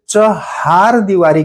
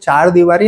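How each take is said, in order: First: The first word is said as three syllables, chahar. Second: The first word is said as two syllables, char. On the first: The speaker calls it right. "उसे चहार दीवारी कहते हैं" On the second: The speaker calls it wrong. "पर वो चार दीवारी नहीं होता है"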